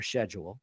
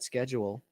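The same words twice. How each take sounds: First: It is said with a British pronunciation. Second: It is said with an American pronunciation.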